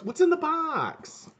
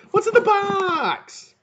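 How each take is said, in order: First: High, drawn-out wail without extra volume; hammed-up high-pitched begging; mock desperate plea. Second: Very high, loud, long-drawn wail; hammed-up anguished yell; mock desperate cry. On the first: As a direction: wail the question, stretching BOX. Acted movie-style line, first take. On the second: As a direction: cry it out bigger, stretching BOX right out. Repeats it bigger.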